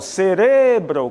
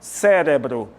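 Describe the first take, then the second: First: The stress is on the second syllable. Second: The stress is on the first syllable. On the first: This is the Spanish pronunciation. "No espanhol, cerebro, qual é a tônica? Re" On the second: This is the Portuguese pronunciation. "No português ... Cérebro. A tônica é Sé"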